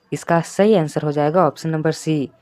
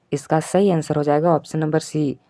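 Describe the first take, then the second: Both takes have the same delivery.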